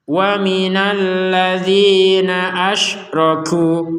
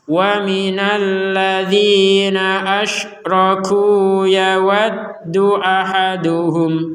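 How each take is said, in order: First: The recitation stops after asyraku. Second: The recitation continues past asyraku without stopping. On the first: "Kalau kita berhenti" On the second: "yaitu dilanjutkan"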